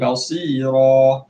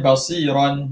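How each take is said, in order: First: The word ends with a long vowel. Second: The word ends with an n sound. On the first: The reader stops on this word. "Jadi basira" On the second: The reading continues past this word. "Asalnya basiran"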